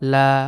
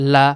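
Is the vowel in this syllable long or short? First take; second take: long; short. First: The vowel is drawn out long. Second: The vowel is short and clipped. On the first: The speaker calls it wrong. "এরকম যেন লম্বা টান না হয়ে যায়" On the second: The speaker calls it right. "শর্ট sound হবে"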